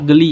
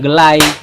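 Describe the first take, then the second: First: The word ends with an 'ee' vowel. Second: The word ends with an 'eye' vowel.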